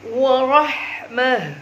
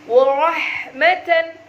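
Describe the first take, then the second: First: The word ends with a soft -ah sound. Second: The word ends with an -atan sound. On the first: The reader stops on this word. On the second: The reading continues without stopping.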